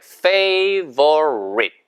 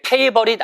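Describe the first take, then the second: First: The first sound uses the upper teeth on the lower lip. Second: The first sound is made without lip-teeth contact. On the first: The speaker calls it right. "위치와 아랫입술이죠" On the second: The speaker calls it wrong. "이게 favorite 아니고"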